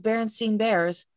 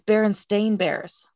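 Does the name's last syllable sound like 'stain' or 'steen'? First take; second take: steen; stain. First: The name's last syllable is pronounced 'steen'. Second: The name's last syllable is pronounced 'stain'. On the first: This is the version people remember. The speaker calls it wrong. "everyone thought it was Bernstein Bears" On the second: This is the actual name. The speaker calls it right. "but it's Bernstein Bears"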